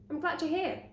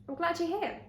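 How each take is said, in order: No difference in how they are said.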